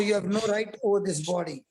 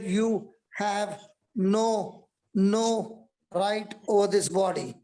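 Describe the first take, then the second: First: Said in the usual way. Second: "You have no, no right" drawn out very slowly; slow, deliberate repeat. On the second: Acted. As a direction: stretch "no" and "right over this body" word by word. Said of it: "I said".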